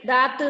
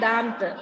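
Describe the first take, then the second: First: The vowel is plain, with no nasal sound. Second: The vowel is nasal, with an m-like sound. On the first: The speaker calls it wrong. "ദാത്ത് എന്നല്ല" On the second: The speaker calls it right. "ഒരു മാ എന്നുള്ളൊരു ഉച്ചാരണം വരുന്നില്ലേ?"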